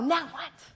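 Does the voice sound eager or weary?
eager. It sounds eager and energetic. Ready and excited for what comes next. "they jump out of bed and go"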